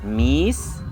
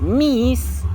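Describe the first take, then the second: First: The vowel is said with calm level pitch. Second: The vowel carries a marked high pitch. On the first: It means cat. "es más tranquilo" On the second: It means to sweep. "con acento en la primera I"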